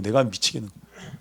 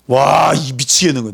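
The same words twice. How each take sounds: First: A softer, deflated repeat; weary sigh. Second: A louder cry of frustration; exasperated outburst. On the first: A leader crushed by complaints, quiet weary repeat. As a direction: let it sink down, worn out. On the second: A leader fed up with the complaints, exasperated outburst. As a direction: throw it out like you're at your wits' end. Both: Acted.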